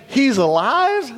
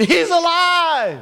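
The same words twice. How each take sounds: First: High, drawn-out disbelieving question; incredulous governor. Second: High, drawn-out exultant cry; mock scream. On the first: Retold or imitated. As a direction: query it slowly in astonishment. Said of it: "imagine the governor saying". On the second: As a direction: imitate a scream of joy, stretching it out.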